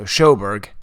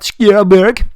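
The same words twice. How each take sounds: First: The name is said in an anglicized way. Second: The name is said in a native-style way. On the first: This is how the person herself says it. "she didn't pronounce it like super authentic" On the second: This is the more authentic pronunciation.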